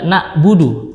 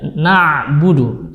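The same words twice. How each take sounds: First: The middle consonant is a plain glottal stop. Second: The middle consonant is a throaty ain sound. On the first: The speaker calls it wrong. "jangan sampai membaca na'budu" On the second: The speaker calls it right. "tapi ain"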